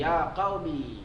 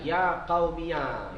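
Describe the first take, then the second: First: The final ya is silent, ending on 'ee'. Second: The final ya is voweled, ending on 'ya'. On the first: "ya ni boleh bagi mati" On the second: "difatahkan ya mutakallim"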